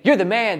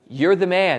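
First: It is said as casual, admiring praise. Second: It is said as a serious accusation.

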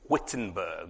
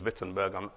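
First: The name starts with a W sound. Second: The name starts with a V sound.

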